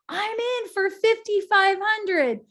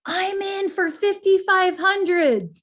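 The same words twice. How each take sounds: First: Much higher, slow and louder, a bright pledge from the front; woman pledging. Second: Louder, slow and higher, a bold call from the back; gentleman pledging. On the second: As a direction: announce the pledge firmly to the room. Man in back pledging money. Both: Retold or imitated.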